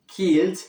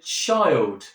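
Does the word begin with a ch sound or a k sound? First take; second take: k sound; ch sound. First: The word begins with a k sound. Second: The word begins with a ch sound. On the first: This is the older form of the word. "the old pronunciation of a k" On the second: This is the later form of the word. "changed to a ch sound"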